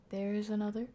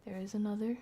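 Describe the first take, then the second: No difference in how they are said.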